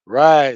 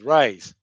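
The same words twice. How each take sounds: First: "ride" loud and stretched, no s; "rice" as "ride". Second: Said in the usual way. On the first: Shown as a demonstration. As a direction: drop the final s sound, "ride". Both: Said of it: "Ride is rice".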